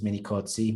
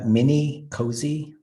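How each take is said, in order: First: The surname is said with an Italian pronunciation. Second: The surname is said with an American pronunciation. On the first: "the Italian way, which is mini cozzi, but it's like two T's instead of a Z" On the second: "I'm used to the Americanized version"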